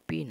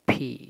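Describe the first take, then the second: First: The first sound has no puff of air. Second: The first sound has a puff of air. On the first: The speaker calls it wrong. "এটা পি না" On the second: The speaker calls it right. "বাতাস বইবে।"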